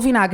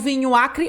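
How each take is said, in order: First: It is said fused into one word. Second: It is said as two separate words. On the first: "Ocorreu alteração fonética" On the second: "eu falo vinho acre"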